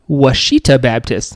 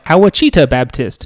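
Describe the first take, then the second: First: The name is said as 'Washita'. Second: The name is sounded out following its spelling. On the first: This is close to the local pronunciation. The speaker calls it right. "this guy was like" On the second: This is how announcers usually mangle it. The speaker calls it wrong. "usually they're like"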